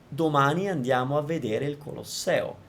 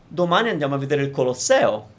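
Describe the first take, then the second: First: All syllables are even, with no word stressed. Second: The word Colosseo carries extra emphasis. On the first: Nothing in the sentence is singled out. "I'm not emphasizing anything in particular" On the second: It is the Colosseum and not another thing we will see. "flat, like flat, flat, flat, and then stress the Colosseo"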